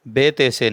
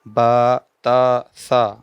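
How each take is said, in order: First: The letters end in an 'e' vowel. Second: The letters end in an open 'aa' vowel. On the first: The speaker calls it wrong. "बेते से इसको मजहूल कहते हैं" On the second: The speaker calls it right. "मारूफ कहते हैं कि उर्दू की तरह नहीं पढ़ना बल्कि अरबी लहजे में पढ़ना है"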